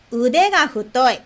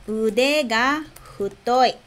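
First: Said in the usual way. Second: "Ude ga futoi" slowly, word by word; slow language-teacher repetition with small gaps; slow model phrase. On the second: Shown as a demonstration. Teacher models "braço gordo" for learners, slowly.

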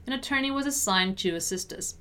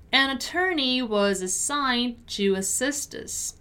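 First: Brisk natural-speed read; conversational-speed model sentence; quicker repeat. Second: Careful, drawn-out teaching read; measured pronunciation model; slow model sentence. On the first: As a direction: link the words and move quickly. Teacher repeats at quicker pace. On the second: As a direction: say it slowly, word by word. Teacher models sentence slowly first. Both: Shown as a demonstration.

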